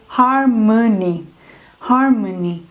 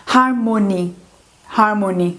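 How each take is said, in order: First: "harmony" slowly, middle "o" reduced to uh; schwa in middle. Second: "harmony" with a full "o" in the middle; wrong full O. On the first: Teacher correcting for learners, "harmony" with reduced middle vowel. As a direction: stretch "harmony" as har-muh-ny. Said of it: "ele vai ficar um ã". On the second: Teacher showing learners what to avoid, "harmony" with full O. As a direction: say "harmony" as har-MO-ny, middle vowel unreduced. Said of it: "Então, não vai ficar". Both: Shown as a demonstration.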